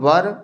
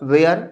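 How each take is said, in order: First: The vowel is short and central, like 'wur'. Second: The vowel glides, like 'wear'. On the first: The speaker calls it right. "इसको देते हैं वर" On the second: The speaker calls it wrong. "वेयर नहीं पढ़ते हैं"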